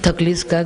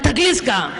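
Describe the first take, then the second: First: The question sounds soft and tender. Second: The question sounds rough and blunt. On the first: The asker truly cares and appreciates her work. The speaker calls it right. "तुम्ही अलवार मनाने म्हणा" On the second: The asker is gruff and does not really care. The speaker calls it wrong. "पहिलवानाच्या भाषेत थकलीस का म्हणू नका बाबा"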